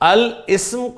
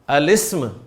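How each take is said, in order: First: The article and noun are said apart. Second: The article and noun run together. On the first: The speaker calls it wrong. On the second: The speaker calls it right.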